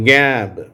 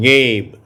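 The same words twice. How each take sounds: First: கேப் said as gap with a short a; கேப் with a flat short a. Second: கேப் said as gape with a long ay; கேப் rhyming with tape. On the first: Teacher reading கேப் as gap. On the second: Teacher reading கேப் as gape after gap. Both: Shown as a demonstration. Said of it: "நான் வாசிக்க வாசிக்க நீங்களும் திருப்பி சொல்லுங்க".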